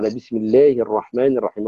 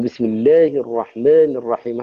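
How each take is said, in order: First: The correct reading, with "الرحمن" and "الرحيم" fully drawn; the proper reading with complete vowels; full vowel length. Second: Vowels clipped too short in "بسم الله الرحمن الرحيم"; the faulty short-vowel reading; shortened vowels. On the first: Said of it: "إتمام الحركة ... على أصوله وقواعده". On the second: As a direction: rush the long vowels in "الرحمن" and "الرحيم", cutting them short. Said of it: "هذا كأنه قلل". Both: Shown as a demonstration.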